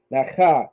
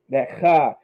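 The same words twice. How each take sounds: The two takes are said the same way.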